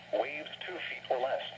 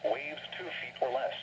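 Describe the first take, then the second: No difference in how they are said.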